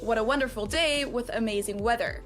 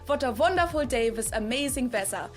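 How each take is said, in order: First: The W sounds are said as English W. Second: The W sounds are said like V sounds. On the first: "instead of" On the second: "if you want to do a strong German accent, you can say things like"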